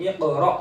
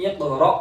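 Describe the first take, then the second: No difference in how they are said.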